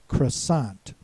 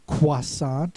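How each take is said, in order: First: All consonants are sounded, with an unusual vowel. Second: The R is silent in this French-style version. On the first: "neither has the oi sound as in English or the wa sound as in French" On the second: "a more French pronunciation, croissant, in which the R becomes silent"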